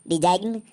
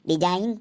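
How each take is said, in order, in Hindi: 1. अंतिम n से पहले g की ध्वनि सुनाई देती है। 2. अंतिम n से पहले g की कोई ध्वनि सुनाई नहीं देती। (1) "इसको हम डिजाइन नहीं पढ़ेंगे" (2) "तो इसको हम डिजाइन पढ़ेंगे"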